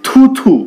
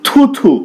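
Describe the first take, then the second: The two takes are said the same way.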